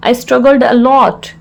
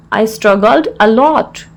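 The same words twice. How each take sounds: First: Said in the usual way. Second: Slow, word-by-word teaching delivery; slow repeat. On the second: Shown as a demonstration. Teacher repeats the English phrase for learners, slowly.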